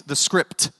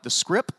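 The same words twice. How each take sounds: First: "script" said slowly with its final T sounded; fully pronounced. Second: "script" said as "scrip", questioning and softer; puzzled, dropped T. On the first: Shown as a demonstration. Explaining slang to the congregation, "script" with full T. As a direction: spell out "script" by voice, crisp T at the end. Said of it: "It means the script". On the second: Retold or imitated. Imitating listeners baffled by slang, "script" as "scrip". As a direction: ask "script" without its final T, tune rising.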